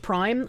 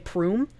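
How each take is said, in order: First: The vowel sounds like 'eye'. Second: The vowel sounds like 'oo'. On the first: "instead of saying Twitch Prime" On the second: "I pronounce things in a fucked up way"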